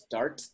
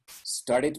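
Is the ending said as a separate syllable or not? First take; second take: not separate; separate. First: The ending is said without an extra syllable. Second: The ending is said as a separate syllable. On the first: The speaker calls it wrong. "Doesn't make sense. Hard to pronounce that way" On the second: The speaker calls it right. "would be the right, the right pronunciation"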